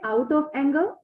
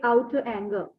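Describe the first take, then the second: First: Each word is said fully and separately. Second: The words blend together, sounding like 'outer anger'. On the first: This is how we say it. "we say out of anger" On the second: This is how native speakers say it. "they say outer anger"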